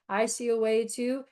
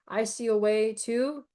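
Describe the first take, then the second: Both takes have the same delivery.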